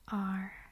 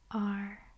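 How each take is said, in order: First: It sounds like the letter R. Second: It sounds like the letter R.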